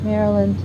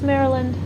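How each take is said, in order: No difference in how they are said.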